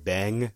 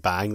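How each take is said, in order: First: It is said with a posh-sounding vowel. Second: It is said with a plain English vowel. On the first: "It sounds like a very posh English person" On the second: "instead of them saying bang"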